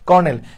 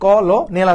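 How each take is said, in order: First: It is said with two syllables, kornel. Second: Every letter is sounded, giving three syllables, kolonel. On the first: "কিন্তু এটা হচ্ছে কর্নেল" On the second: "আমরা যদি ভেঙে ভেঙে উচ্চারণ করি তাহলে কি আসতেছে, কলনেল আসতেছে"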